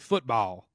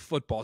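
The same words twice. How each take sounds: First: The word is said in a Southern accent. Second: The word is said in a plain accent. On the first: The speaker calls it right. "say football" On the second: The speaker calls it wrong. "don't say football"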